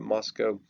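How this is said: The city name is said the British way. "In England, they tend to call it Moscow"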